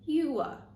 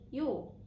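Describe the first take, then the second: First: Two syllables with a long oo and a schwa. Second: One syllable with the vowels merged into or. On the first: "we pronounce uh instead of ah" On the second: "they often change into or"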